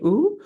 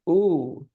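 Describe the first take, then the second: First: The vowel is held at a higher pitch. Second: The vowel is held at a lower pitch.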